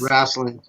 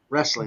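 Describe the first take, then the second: First: The word has a Southern pronunciation, not as spelled. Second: The word is pronounced just as it is spelled. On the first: This is how the South says it. "I always said" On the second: This is how California says it. "put pronounced the way it's spelled, W R E"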